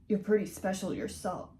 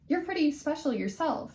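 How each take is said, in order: First: It is spoken in the male character's put-on voice. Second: It is spoken in the female character's put-on voice. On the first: The speaker calls it wrong. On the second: The speaker calls it right.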